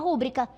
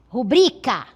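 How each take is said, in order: First: The stress is on the first syllable. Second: The stress is on the second syllable. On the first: The speaker calls it wrong. "eu desloquei de bri para ru" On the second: The speaker calls it right. "a ênfase na segunda sílaba do bri"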